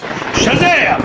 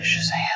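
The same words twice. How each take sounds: First: The word is yelled loudly. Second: The word is said quietly and plainly.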